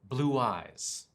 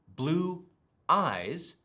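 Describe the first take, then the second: First: A w sound links the two words together. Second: The words are said without a linking w sound.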